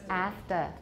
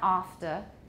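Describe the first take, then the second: First: The word is said with the vowel of the modeled accent. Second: The word is said with a vowel outside the modeled accent. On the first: The speaker calls it right. "It's after" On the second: The speaker calls it wrong. "it's not after"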